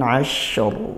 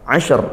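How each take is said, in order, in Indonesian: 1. Bunyi sh mengalir dengan desis yang halus. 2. Bunyi sh dipotong pendek dengan pantulan. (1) "shin dialirkan suaranya dan didesiskan nafasnya" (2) "tidak seperti itu"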